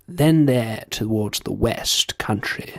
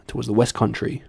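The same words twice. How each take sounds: First: Drawn-out posh English accent. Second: Said in the usual way. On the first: Shown as a demonstration. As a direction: say it slowly in upper-class English. Switches from posh demo to own accent.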